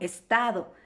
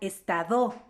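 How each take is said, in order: First: The stress is on the middle syllable. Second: The stress is on the last syllable. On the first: "no estado" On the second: "si fuera la sílaba tónica, la sílaba do, no, la palabra se pronunciaría estado"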